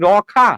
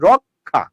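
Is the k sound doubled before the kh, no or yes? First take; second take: no; yes. First: It is said as ro-kha, with no k. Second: It is said as rok-kha, with a doubled k. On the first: The speaker calls it wrong. "রখা উচ্চারণ করেন না" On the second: The speaker calls it right. "আপনি উচ্চারণ করছেন রক্ষা"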